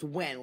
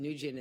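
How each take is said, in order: First: The name is said as one syllable. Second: The name is said with several syllables. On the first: The speaker calls it right. "it's pronounced Wen, like W H E N" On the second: The speaker calls it wrong. "we pronounced it Nujian and they didn't say anything"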